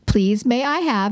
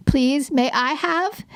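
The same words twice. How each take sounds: First: Said in the usual way. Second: Higher, slow imitation of a toddler; little kid voice. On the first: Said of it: "And I go". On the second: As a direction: copy a two-year-old parroting mom. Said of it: "in that little kid voice".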